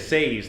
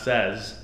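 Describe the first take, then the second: First: The vowel matches the word 'say'. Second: The vowel is short, like 'sez'. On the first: The speaker calls it right. "If I say say, I should say says" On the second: The speaker calls it wrong. "not says"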